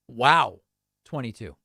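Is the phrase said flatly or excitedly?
excitedly. It is said excitedly, with enthusiasm. The speaker calls it right. "you have to say it that way"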